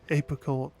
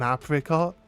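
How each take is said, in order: First: That vowel is said with a plain sound. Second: One vowel is said with a sharp sound. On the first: This is how the speaker has always known it. "always known it as an apricot" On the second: This is how Americans say it. "they tend to pronounce the I as a sharp I"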